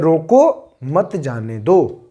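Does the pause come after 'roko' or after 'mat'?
after roko. The pause comes right after 'roko'. Stop him; do not let him go. "मतलब रोक लीजिए, उसको जाने मत दीजिए"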